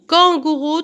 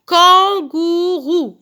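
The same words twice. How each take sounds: First: Said in the usual way. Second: "Kangourou" very slow, in three long beats; syllable by syllable. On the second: Shown as a demonstration. Teacher counting syllables for pupils, very slow and segmented. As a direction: stretch every syllable of "Kangourou". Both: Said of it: "trois syllabes".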